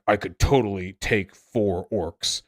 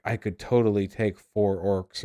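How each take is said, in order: First: Angry Wojak. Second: Lady Wojak. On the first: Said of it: "an angry Wojak". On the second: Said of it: "a lady Wojak". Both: Retold or imitated.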